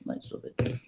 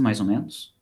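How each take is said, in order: First: Whispered under the breath, voiceless. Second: Said in the usual way. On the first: Real, not acted. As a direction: whisper it to yourself.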